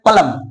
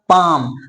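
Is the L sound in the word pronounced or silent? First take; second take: pronounced; silent. First: The L sound is pronounced in the word. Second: The L sound is silent in the word. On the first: The speaker calls it wrong. "जो कि गलत pronunciation है" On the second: The speaker calls it right. "Real pronunciation क्या होगा"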